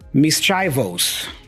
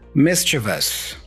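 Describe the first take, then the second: First: The word is pronounced in a distorted way. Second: The word is pronounced in the standard way. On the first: The speaker calls it wrong. "let me purposely mispronounce this word" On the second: The speaker calls it right. "much better. Excellent. ninety-nine percent"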